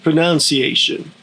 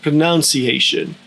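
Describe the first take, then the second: Both takes have the same delivery.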